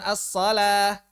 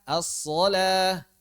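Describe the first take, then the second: First: As-shalah with a thin light alif, like asalah; wrong thin reading. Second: As-shalah said slowly with a thick alif, like asolah; correct heavy reading. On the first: Teacher shows students the wrong thin reading. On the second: Teacher gives the correct heavy reading after the wrong one. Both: Shown as a demonstration. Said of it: "bukan as-shalah".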